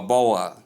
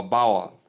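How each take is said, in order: First: "bowel" as BOH-ul, two syllables; mispronounced bowl. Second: "bowel" as BOW-ul, with an ow as in cow; mispronounced bowl. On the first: Teacher listing wrong versions, bowl mispronounced boh-ul. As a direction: split "bowel" into bo and ul. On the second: Teacher listing wrong versions, bowl mispronounced bow-ul. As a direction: open "bowel" with "bow" as in bough. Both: Shown as a demonstration.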